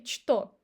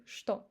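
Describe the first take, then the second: First: Что said chto with ch; что, ch pronounced as written; wrong spelled что. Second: Что said shto; что with sh instead of ch; correct что. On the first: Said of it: "We don't say". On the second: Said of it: "We say". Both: Shown as a demonstration.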